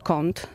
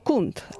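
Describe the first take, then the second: First: The vowel is a nasal on sound. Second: The vowel is said as un. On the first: This is how standard Polish says it. "nie mówimy kąt" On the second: This is how the local dialect says it. "tylko kunt"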